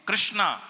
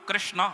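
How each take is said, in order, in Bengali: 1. নামটি দীর্ঘ 'a' স্বর দিয়ে শেষ হয়। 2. নামটি দীর্ঘ 'a' স্বর ছাড়া শেষ হয়। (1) "অনেকে কৃষ্ণা" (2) "আকার নয়, কৃষ্ণ"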